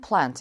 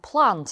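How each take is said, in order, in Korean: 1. 미국식 억양으로 발음됩니다. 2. 영국식 억양으로 발음됩니다. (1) "미국식은 plant" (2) "영국 호주식 발음은 plant"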